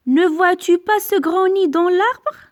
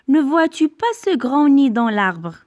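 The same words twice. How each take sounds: First: Higher and louder, "pas" rising as a real question; question intonation. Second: Said in the usual way. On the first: Shown as a demonstration. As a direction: ask it with a lifted voice. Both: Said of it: "Attention à l'intonation".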